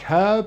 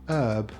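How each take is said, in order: First: The word is said with British pronunciation. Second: The word is said with American pronunciation. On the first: "Brits like herb" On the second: "Americans prefer herb"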